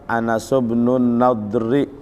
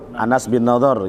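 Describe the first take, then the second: First: The last name ends with an 'ri' sound. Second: The last name ends with an 'ar' sound. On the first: This is the full grammatical reading of the text. "Kalau dibaca Anas bin Nadri" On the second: This is how the name is commonly said. "Tapi kalau kita sebut Anas bin Nadhar"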